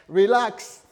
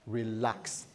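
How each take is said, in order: First: High, loud burst; emphatic command to relax. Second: Low, soft reassurance; calming pastor. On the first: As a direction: tell him to calm down, loudly. Repeats it forcefully after the laugh. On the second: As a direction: settle down an upset husband quietly. Pastor calming the shouting husband. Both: Acted.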